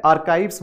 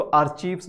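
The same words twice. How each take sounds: First: "आर्काइव्स" with a hard k, "ar-KYVES"; correct pronunciation. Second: "आर्चीव्स" with ch and ee, "ar-CHEEVS"; common mispronunciation. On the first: Teacher showing students how to read the word, "आर्काइव्स" said with a k sound. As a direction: say "आर्काइव्स" with k and a long eye vowel. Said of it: "इसका correct pronunciation होता है". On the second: Teacher quoting a common student error, "आर्चीव्स" said with ch and long ee. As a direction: say "आर्चीव्स" with a ch instead of k. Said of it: "आर्चीव्स बोलना गलत है". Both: Shown as a demonstration.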